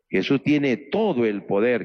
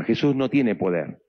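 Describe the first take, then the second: First: Slow, leaning hard on "todo"; "todo" drawn out and stressed, the rest slow. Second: Said in the usual way. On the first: Shown as a demonstration. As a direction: dwell on "todo" to set it against the plain line. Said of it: "que es diferente".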